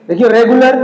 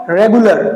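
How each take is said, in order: First: regular stressed and rising; stressed example. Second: regular said plainly, once, as a model word; just name regular; example word. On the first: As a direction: point at regular with a rise. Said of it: "ओ आ रहा है यहाँ पे". (Regular पर ज़ोर देकर बोलें) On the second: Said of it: "examples". (सामान्य रूप से शब्द) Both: Shown as a demonstration.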